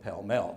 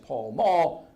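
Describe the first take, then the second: First: It is said the British way. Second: It is said the North American way. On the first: "They called it" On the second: "we would pronounce it in North America as"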